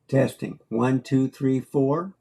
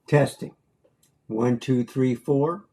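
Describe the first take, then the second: The two takes are said the same way.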